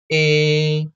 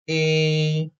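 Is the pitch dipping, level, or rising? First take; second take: level; level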